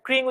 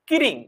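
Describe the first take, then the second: First: The opening consonants are said together without a vowel. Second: A vowel is inserted between the opening consonants. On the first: "আমরা এটা ক্রিং উচ্চারণ করতে পারি না" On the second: "আমরা বলি হচ্ছে কিরিং"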